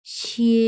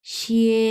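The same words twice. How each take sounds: First: শিয়ে held level and high, first tone. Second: শিয়ে again held level and high, first tone. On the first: Teacher demonstrates first tone on শিয়ে, level and high. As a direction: sustain শিয়ে on one high flat pitch. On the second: Teacher repeats first tone শিয়ে for students. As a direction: keep শিয়ে flat and high. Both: Shown as a demonstration. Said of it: "এক number tone".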